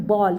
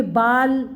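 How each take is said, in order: First: बॉल said with a rounded aw sound; बॉल with the English o of ball; right sound ball. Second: बाल said with a plain open aa; wrong reading baal. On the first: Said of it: "लेकिन इसकी sound है बॉल". (बॉल को गोल ऑ की ध्वनि के साथ सही उच्चारण) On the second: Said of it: "नहीं". (बाल को खुले आ के साथ गलत उच्चारण) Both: Shown as a demonstration.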